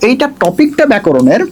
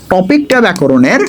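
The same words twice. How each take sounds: First: Said in the usual way. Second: Slow, deliberate stress on টপিকটা; slow emphasis. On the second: Shown as a demonstration. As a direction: drag out টপিকটা ব্যাকরণের so each word lands. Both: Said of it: "কিন্তু আমি বলি মুখস্থ topic".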